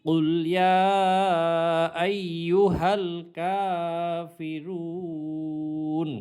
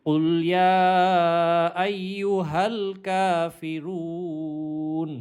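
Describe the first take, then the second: Both takes have the same delivery.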